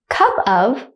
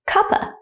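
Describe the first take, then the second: First: Both words are said fully and separately. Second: The words blend, ending in a short uh.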